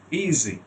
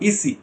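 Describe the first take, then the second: First: "easy" with long ee and buzzing z; correct voiced z. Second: "easy" with a voiceless s, "ee-see"; wrong s sound. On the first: Teacher modelling the voiced sound, "ee-zee" for "easy". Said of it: "easy, not easy". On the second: Teacher showing the mistake, hissed s in "easy". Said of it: "not easy". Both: Shown as a demonstration.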